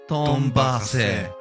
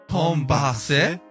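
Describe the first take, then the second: The two takes are said the same way.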